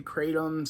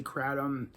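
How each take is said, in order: First: "kratom" said as KRAY-tum; long A pronunciation. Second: "kratom" said as KRAD-um; short A pronunciation. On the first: Vlogger showing viewers one variant, "kratom" as KRAY-tum. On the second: Vlogger showing viewers the other variant, "kratom" as KRAD-um. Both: Shown as a demonstration. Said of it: "some people say kratom".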